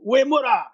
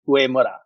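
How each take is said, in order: First: It is said forcefully, like a samurai. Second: It is said plainly, without extra force.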